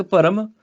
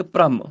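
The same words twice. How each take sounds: First: ਭਰਮ as bha-ram; full r. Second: ਭ੍ਰਮ as bhramm; half r. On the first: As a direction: say ਭਰਮ with a vowel before r. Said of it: "ਇੱਕ ਭਰਮ". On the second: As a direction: join the first consonant to r in ਭ੍ਰਮ. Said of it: "ਇੱਕ ਭ੍ਰਮ". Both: Shown as a demonstration.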